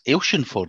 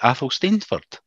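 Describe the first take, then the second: First: The name is said in a shortened local form. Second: The name is said fully as it is spelled. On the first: The speaker calls it right. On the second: The speaker calls it wrong. "it looks like"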